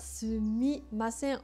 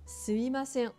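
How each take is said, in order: First: Every syllable is said, including the middle mi. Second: The middle mi is dropped, sounding like suimasen. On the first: "sumimasen va devenir" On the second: "parce que c'est plus facile à prononcer"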